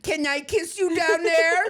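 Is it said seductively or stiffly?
stiffly. It is said in a stiff, formal, regal tone.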